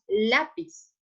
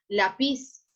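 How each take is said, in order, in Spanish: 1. El acento está en la primera sílaba. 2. El acento está en la última sílaba. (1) "decimos lápiz" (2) "Nosotros no decimos lápiz"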